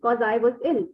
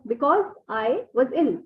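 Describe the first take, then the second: First: 'Because' is shortened to 'cause'. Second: 'Because' is said in full.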